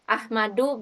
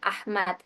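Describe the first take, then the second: First: The name ends with an added -u vowel. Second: The name ends on the bare consonant. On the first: The speaker calls it wrong. "bukan Ahmadu" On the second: The speaker calls it right. "tapi langsung bilang Ahmad"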